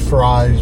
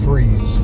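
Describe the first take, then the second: First: The vowel sounds like the one in cries. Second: The vowel sounds like the one in sneeze. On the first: This is how the spelling suggests it is said. The speaker calls it wrong. "looks like it should be Fries" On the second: This is how local people actually say it. The speaker calls it right. "they pronounce it as Freeze"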